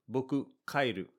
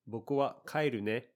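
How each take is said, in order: First: Blunt, flat announcement of leaving; just state it, no warmth; dry and cold. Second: Gentle, friendly lift on ne; friendlier. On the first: Telling a friend you're going home, dry and cold. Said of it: "this sounds a little dry and a little cold". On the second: Telling a friend you're heading home, friendly and gentle. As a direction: say it kindly, acknowledging them. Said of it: "This sounds much friendlier". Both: Shown as a demonstration.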